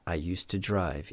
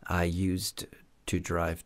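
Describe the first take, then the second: First: It is said quickly, D and T merged. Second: It is said slowly, each sound separate. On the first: "on parle un peu plus rapidement et donc ça ne fait qu'un son" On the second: "on peut parler plus lentement"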